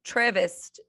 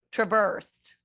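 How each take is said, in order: First: "traversed" stressed on the first syllable, TRAV-erst. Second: "traversed" stressed on the second syllable, truh-VERST. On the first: Co-host testing how to say it, "traversed" as TRAV-erst. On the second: Co-host trying the other way, "traversed" as truh-VERST. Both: Shown as a demonstration. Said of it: "Is it traversed or traversed".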